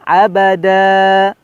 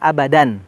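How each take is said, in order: First: The word ends on an open a vowel. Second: The word ends with an n sound. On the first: The speaker calls it right. "maka dibacanya abada" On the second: The speaker calls it wrong. "Jangan abadan"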